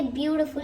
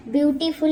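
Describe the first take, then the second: First: ब्यूटीफुल said as byoo-ti-ful, the correct English way; correct pronunciation. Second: ब्यूटीफुल said as the wrong version, the way it looks in spelling; wrong pronunciation. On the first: Teacher showing the right way to say ब्यूटीफुल. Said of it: "ऐसा बोलते हैं". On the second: Teacher showing the wrong way to say ब्यूटीफुल. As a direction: give ब्यूटीफुल as the mistaken reading. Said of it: "वैसा pronunciation नहीं है". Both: Shown as a demonstration.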